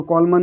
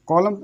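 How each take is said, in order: First: कॉलमन ending in a sounded "man"; wrong reading, N sounded. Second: कॉलम ending on the M; silent N. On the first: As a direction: say कॉलमन with the N voiced. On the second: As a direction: say कॉलम as "co-lam", no N. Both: Shown as a demonstration. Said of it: "इसको कॉलमन नहीं पढ़ेंगे".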